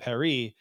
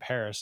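First: It is pronounced the French way. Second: It is pronounced the American way. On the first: This pronunciation makes the title rhyme. The speaker calls it right. "like it would be in the French dialect" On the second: This pronunciation loses the rhyme. The speaker calls it wrong. "because Americans are Americans"

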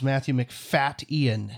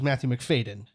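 First: The surname has a glottal stop in the middle. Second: The surname has a plain d sound, no glottal stop. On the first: The speaker calls it right. "there is a glottal stop in it" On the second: The speaker calls it wrong. "we always thought it was Matthew McFadden. It is not"

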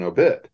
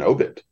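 First: The stress is on the second syllable. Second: The stress is on the first syllable. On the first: "that's the way it is in obituary" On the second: "It's the first syllable"

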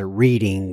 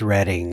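First: The first vowel is a long 'ee' sound. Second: The first vowel is a short 'e' sound. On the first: This is the tempting everyday pronunciation. The speaker calls it wrong. "I always wanted to pronounce it Reading" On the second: This is the town's actual pronunciation. The speaker calls it right. "but I know it's Reading"

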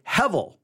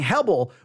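First: The middle consonant is a V sound. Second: The middle consonant is a B sound. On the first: The speaker calls it right. "the letter B there should actually be given a V sound" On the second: The speaker calls it wrong. "So instead of saying hebel"

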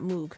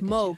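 First: The word does not rhyme with rogue. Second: The word rhymes with rogue. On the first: The speaker calls it wrong. "I always pronounce that wrong" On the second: The speaker calls it right. "It's Moog, not Moog"

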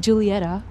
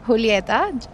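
First: The name is said with an American accent. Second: The name is said with a Spanish accent.

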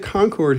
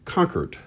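First: It is said with a Michigan pronunciation. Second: It is said with a Boston pronunciation. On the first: "if you say Concord here in Michigan" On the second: "in Boston, it's said Concord is how you pronounce it"

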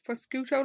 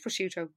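First: The middle consonants sound like 'sk'. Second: The middle consonant sounds like 'sh'. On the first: "maybe it's prosciutto, like bruschetta" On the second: "I think it's prosciutto"

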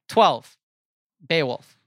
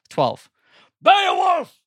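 First: It is said flatly, with low energy. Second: It is said with lively, high energy.

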